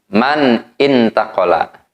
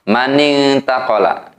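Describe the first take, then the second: First: The two words are said separately. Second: The two words are run together.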